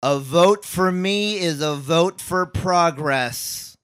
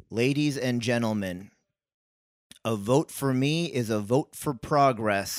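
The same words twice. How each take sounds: First: Very slow, loud and high oration; booming campaign speech. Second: Slow, slightly raised politician read; earnest campaign speech. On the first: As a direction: bellow it to a rally crowd. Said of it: "I want you to really". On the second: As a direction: deliver the line like a mayoral candidate. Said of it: "I didn't really believe that you were go get 'em". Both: Shown as a demonstration.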